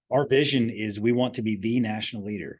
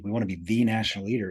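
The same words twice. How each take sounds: First: Said in the usual way. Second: "the" said as "thee" and leaned on; stress on THE. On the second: Shown as a demonstration. To new hires, stressing "the" in "the national leader". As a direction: hit the word "the" with weight. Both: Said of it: "I emphasize the word "the".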